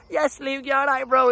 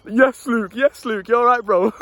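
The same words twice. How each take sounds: First: A higher, kid-like hail, lightly voiced; kids greeting. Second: A casual shout-out from a passing mate, a bit louder; lads greeting. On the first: Little kids on bikes call out to Luke, higher mock kid voice. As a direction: call out like a little kid riding past on a bike. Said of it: "the little kids that know me". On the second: Retold or imitated. Lads from the estate greet Luke in passing, casual loud hail. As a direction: hail him like a lad from the estate walking by. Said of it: "lads going past that knew me".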